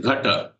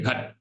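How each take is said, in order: First: The word ends with a short final vowel. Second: The word ends without a final vowel. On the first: The speaker calls it right. "it is ghata. So the last a is as if swallowed by people" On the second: The speaker calls it wrong. "when people say ghat, it is not ghat"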